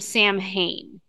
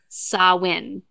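First: The name is pronounced in an anglicized way. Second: The name is pronounced in the Celtic way. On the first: The speaker calls it wrong. "they call him Samhain" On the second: The speaker calls it right. "his name is Samhain. That's how you pronounce the name"

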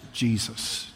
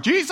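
First: It is said quietly. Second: It is said loudly.

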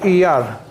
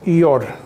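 First: The last syllable has an 'a' vowel. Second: The last syllable has an 'o' vowel. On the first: "Iyar is red with a patach" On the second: "you read it with a komatz"

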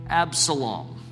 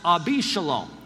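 First: The name has no vowel between Ab and salom. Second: The name has an added i vowel after Ab. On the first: The speaker calls it wrong. "that's actually not how you pronounce it in the Hebrew" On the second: The speaker calls it right. "but it's pronounced Abishalom"

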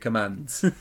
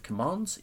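First: Commands is said with a short northern vowel. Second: Commands is said with a long southern vowel. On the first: The speaker calls it right. "That would have been much better" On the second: The speaker calls it wrong. "with my diction that doesn't rhyme"

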